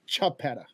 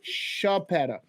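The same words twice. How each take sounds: First: The name begins with a ch sound. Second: The name begins with an sh sound. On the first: This is how distant relatives say it. "distant family members that pronounce it" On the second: This is how the speaker's own family says it. "we pronounce it with an S H"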